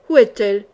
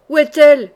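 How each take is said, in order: First: Tight, louder demand; through clenched teeth. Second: Much louder, higher outburst; yelled demand. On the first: Jean sans peur questioning his returning men, through clenched teeth. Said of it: "dit-il, les dents serrées". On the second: Jean sans peur demanding news of her, furious yell. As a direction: yell the question, voice raised high. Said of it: "hurla Jean sans peur". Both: A narrator's reading.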